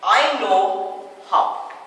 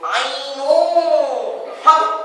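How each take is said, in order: First: It is said in a plain, ordinary voice. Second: It is said imitating the yoga sir's voice.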